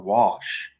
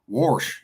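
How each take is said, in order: First: The word is said in a standard accent. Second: The word is said in a Central Valley accent. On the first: "That's a Valley term for wash" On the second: "That's a Valley term"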